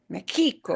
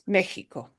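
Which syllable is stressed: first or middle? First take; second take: middle; first. First: The stress is on the middle syllable. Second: The stress is on the first syllable. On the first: The word is written without an accent mark. The speaker calls it wrong. "with no accent mark, it would have to be pronounced Mexico" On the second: The word is written with an accent mark. The speaker calls it right. "The way it is pronounced is Mexico, punching that through"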